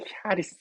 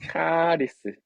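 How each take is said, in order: First: The word starts with a breathy h-like sound. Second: The word starts with a hard k sound. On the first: This is the original exact pronunciation. "원래 정확한 발음은 히아리스입니다" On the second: This is how people usually say it. "근데 이제 카리스라고 그냥 표현을 해요"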